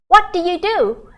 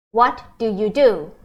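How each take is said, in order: First: What said higher and louder; emphatic repeat. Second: Said in the usual way. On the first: Shown as a demonstration. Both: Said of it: "we say".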